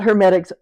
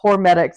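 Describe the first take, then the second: First: The word begins with the sound 'her'. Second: The word begins with the sound 'hor'. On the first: The speaker calls it wrong. "it's not hermetics" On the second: The speaker calls it right. "it's hormetics"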